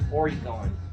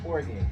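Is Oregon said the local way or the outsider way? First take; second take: outsider; local. First: Oregon is said the way outsiders say it. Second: Oregon is said the way locals say it. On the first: The speaker is not from the area. The speaker calls it wrong. "not Oregon. ... We don't say it Oregon" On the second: The speaker is from the area. The speaker calls it right. "it's Oregon"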